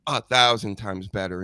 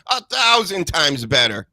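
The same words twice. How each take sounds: First: Said in the usual way. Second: "A thousand times better" pitched higher and louder; emphatic repeat. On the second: Real, not acted. Host insisting another commentator beats McAfee, THOUSAND hit emphatically. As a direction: punch THOUSAND high and loud.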